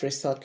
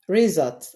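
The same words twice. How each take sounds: First: The s is said as a hissing s sound. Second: The s is said as a buzzing z sound. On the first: The speaker calls it wrong. "and not" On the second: The speaker calls it right. "S letter but sounds Z"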